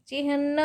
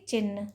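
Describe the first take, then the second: First: चिन्ह said as "chi-hnna", h before n; correct pronunciation. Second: चिन्ह said as "chinn", n straight after i; wrong pronunciation. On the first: Teacher giving students the right form, चिन्ह as "chihna". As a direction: sound h before a long n in चिन्ह. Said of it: "होता है". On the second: Teacher showing students the error, चिन्ह as "chinn". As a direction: drop the h before n in चिन्ह. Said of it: "ना कि". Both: Shown as a demonstration.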